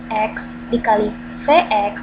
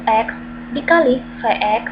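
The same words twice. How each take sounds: The two takes are said the same way.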